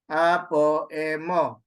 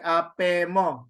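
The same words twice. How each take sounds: First: "Apo, emo" in separate parts with the o kept; unelided reading. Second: "apemo" run together without the o after p; elided three syllables. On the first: Teacher contrasting an added syllable, Apo and emo kept apart. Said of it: "Not like apemo". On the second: Teacher showing the elision, apemo as one joined word. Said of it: "So it's three, three syllables for apemo". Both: Shown as a demonstration.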